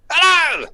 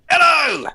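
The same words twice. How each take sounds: First: High, loud burst of hello; dad's loud hello again. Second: High, loud burst of hello; dad's loud hello. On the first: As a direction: shout hello high like dad. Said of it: "and he went". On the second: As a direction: blast out hello like dad on the phone. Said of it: "I do an impression of my dad". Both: Retold or imitated.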